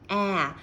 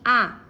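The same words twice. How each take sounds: First: An English vowel with the back of the jaw opened. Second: A plain Portuguese open a vowel. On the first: "esse é A. Você abre a parte de trás da mandíbula" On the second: "a gente tem A em português"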